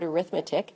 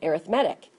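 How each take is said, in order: First: The stress is on the second syllable. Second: The stress is on the third syllable. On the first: It is the noun naming the subject. "that looks like the word arithmetic" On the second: It is the adjective describing a sequence. "when it's an adjective, we pronounce it arithmetic"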